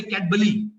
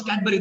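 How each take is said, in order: First: Cadbury with L in place of R, "Cad-buh-lee"; toddler mispronunciation. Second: Said in the usual way. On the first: Retold or imitated. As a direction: say Cadbury like a toddler who turns R into L. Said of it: "They cannot pronounce the sound of R". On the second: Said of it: "They can't even pronounce Cadbury".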